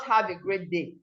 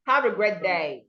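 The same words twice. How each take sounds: First: "day" said as "dee"; shortened vowel. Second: "day" with a full ay glide, falling; lengthened vowel. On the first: Teacher showing what not to say, vowels shortened. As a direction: cut "great day" short, like gret dee. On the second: Teacher modelling the length, long falling day. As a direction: hold the vowel in "great day". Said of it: "Observing the length". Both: Shown as a demonstration.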